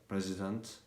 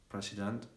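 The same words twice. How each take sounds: The two takes are said the same way.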